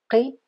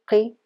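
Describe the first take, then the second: No difference in how they are said.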